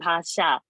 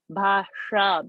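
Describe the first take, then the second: First: The sh is made without curling the tongue back. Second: The sh is made with the tongue curled back. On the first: The speaker calls it wrong. "It's not bhasha" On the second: The speaker calls it right. "Because I have to touch the tongue"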